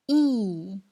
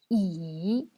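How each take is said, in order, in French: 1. Le ton descend brusquement du haut vers le bas. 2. Le ton plonge bas puis remonte. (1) "C'est le quatrième ton" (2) "C'est le troisième ton"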